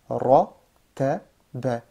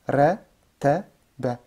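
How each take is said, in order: First: Only the first syllable sounds heavy and dark. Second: All three syllables sound light and thin. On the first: The speaker calls it right. "je fais lourd ici, lourd, et là après c'est léger" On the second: The speaker calls it wrong. "Je lis tout léger"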